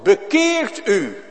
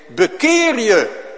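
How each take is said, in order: First: High, loud and slow; solemn ringing command; scripture command. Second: High, loud, slow command; urgent pulpit call; call to repent. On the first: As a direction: proclaim it as God's own word. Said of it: "Dat staat in het woord". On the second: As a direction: thunder it out as a summons to repent. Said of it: "Dan zeg ik". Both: Acted.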